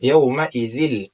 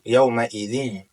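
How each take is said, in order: First: The tanwin merges straight into an l sound. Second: A nasal n sound is heard at the join. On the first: The speaker calls it right. "tidak perlu mengeluarkan suara lewat hidung" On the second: The speaker calls it wrong. "tidak perlu yauma idzin"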